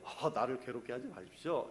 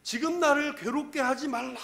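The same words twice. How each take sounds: First: Low, soft, understated plea; mild polite request. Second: High-pitched anguished plea, trailing into strain; tormented demon's cry. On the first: Shown as a demonstration. Preacher shows how the demon would not have said it, meek low request. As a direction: say it meekly, as if asking politely. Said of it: "이 톤이 어떨 것 같아요?". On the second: Acted. Demon begs Jesus to leave it alone, agonised cry. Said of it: "이 괴악스러운 소리를 막 질러댔을".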